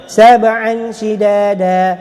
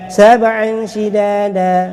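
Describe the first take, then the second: Both takes have the same delivery.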